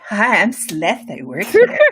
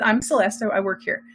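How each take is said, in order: First: It is said in a warm, flirty way. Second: It is said in a plain, matter-of-fact way.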